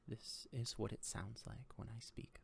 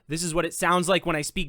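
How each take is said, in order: First: The voice is very soft. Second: The voice is very loud. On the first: "when I speak very softly" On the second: "when I speak very loud"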